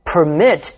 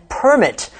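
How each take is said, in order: First: "permit" stressed on the second syllable, per-MIT; verb stress. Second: "permit" stressed on the first syllable, PER-mit; noun stress. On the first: Teacher lists heteronyms for learners, "permit" with second-syllable stress. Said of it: "place the stress on the second syllable". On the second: Teacher lists heteronyms for learners, "permit" with first-syllable stress. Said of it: "put the stress on the first syllable". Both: Shown as a demonstration.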